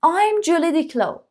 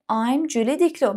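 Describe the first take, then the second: First: I'm Julie Diclo slow and higher; high slow model; slow model line. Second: Said in the usual way. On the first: Shown as a demonstration. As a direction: read it like the girl, drawn out. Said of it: "model line again". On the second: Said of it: "plain repeat".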